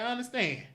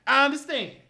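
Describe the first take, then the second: First: Said in the usual way. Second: "I understand" louder and higher, pushed out; louder, upset. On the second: Real, not acted. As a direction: repeat "I understand" with an upset push. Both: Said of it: "I'm a little upset".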